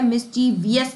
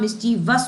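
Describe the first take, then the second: First: It ends with an extra 'ee-us' syllable. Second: It ends with a short 'vus' syllable. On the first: The speaker calls it wrong. "मिसचीवियस नहीं होता" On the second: The speaker calls it right. "मिसचीवस होता है"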